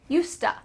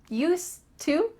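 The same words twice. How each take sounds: First: The two words blend into one reduced form. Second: Both words are said fully and separately.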